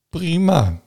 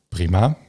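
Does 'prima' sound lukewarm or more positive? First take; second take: more positive; lukewarm. First: It sounds warmer and more positive. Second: It sounds lukewarm, only just okay. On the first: Things are fairly good, a seven out of ten. "En nu is het dus prima" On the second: Things are barely good enough, a six out of ten. "En toen ik je binnenkwam was het prima"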